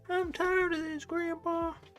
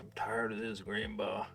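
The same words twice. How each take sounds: First: It is said in a put-on character voice. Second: It is said in his normal voice.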